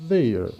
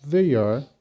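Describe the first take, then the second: First: "they are" squeezed into one syllable, like they're; short contracted "they are". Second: Said in the usual way. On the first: Shown as a demonstration. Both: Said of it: "pronunciar da seguinte forma".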